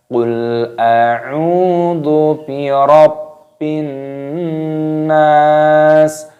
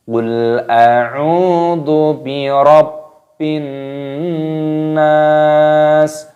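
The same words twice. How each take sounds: No difference in how they are said.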